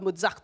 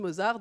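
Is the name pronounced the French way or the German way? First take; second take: German; French. First: The name is said with a German pronunciation. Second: The name is said with a French pronunciation. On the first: This is not how it is said in France. "On ne dit pas" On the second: This is how it is said in France. "on dit"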